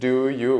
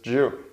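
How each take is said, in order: First: Both words are said fully and separately. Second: The two words blend into one quick syllable.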